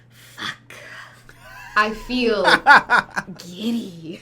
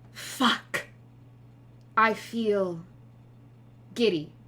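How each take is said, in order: First: It is read with a hissing, snake-like sound. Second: It is read in a dramatic, poetic way. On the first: "a very snake-like sound" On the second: "I'll do the poetic reading of it for you"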